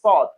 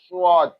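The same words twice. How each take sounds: First: The consonant is said plainly, without whistling. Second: The consonant is said with a whistling sound. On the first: The speaker calls it right. "So just sword" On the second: The speaker calls it wrong. "Some say sword, and that is wrong"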